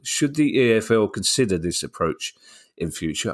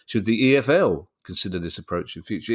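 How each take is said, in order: First: The question is read plainly without extra emphasis. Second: The question is read with added emphasis.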